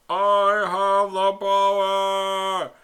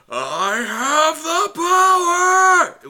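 First: It is said flat and bland. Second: It is said loudly with a build-up.

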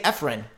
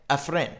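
First: The stress is on the first syllable. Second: The stress is on the second syllable. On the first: The speaker calls it wrong. "I used to say Efren" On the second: The speaker calls it right. "Like you would say a friend"

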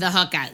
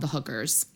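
First: It is said in a put-on accent. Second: It is said in the speaker's normal voice.

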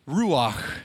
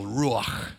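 First: The final sound is soft and light. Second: The final sound is harsh and guttural.

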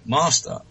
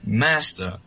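First: It is said in a British accent. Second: It is said in an American accent. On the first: The speaker calls it right. "I'll just say my British accent" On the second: The speaker calls it wrong. "I'm going to American accent now"

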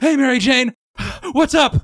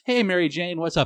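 First: The voice sounds strained and out of breath. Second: The voice sounds calm and relaxed. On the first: He is answering while swinging or fighting. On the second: He is answering casually while at ease.

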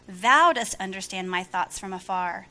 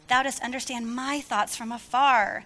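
First: The stress falls on the word thou. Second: The stress falls on the word my. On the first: The focus is on the Lord. The speaker calls it right. "Now listen to the difference" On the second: The focus is on the reader himself. The speaker calls it wrong. "my attitude and my posture toward that scripture was all about myself"

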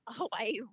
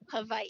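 First: The W is said as a plain English W. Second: The W is said more like a V. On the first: The speaker calls it wrong. "we're pronouncing Hawaii" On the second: The speaker calls it right. "it's actually pronounced Hawaii. ... the W is with more of a V sound"

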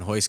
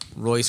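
First: The name begins with an H sound. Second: The name begins with an English R sound. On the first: "Royce Gracie and Hoist Gracie are the same people" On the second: "Royce Gracie and Hoist Gracie are the same people"

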